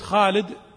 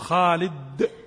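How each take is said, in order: First: The final consonant is short and single. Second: The final consonant is doubled and held. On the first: "إذا قلت خالد" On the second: "تقول خالد هكذا"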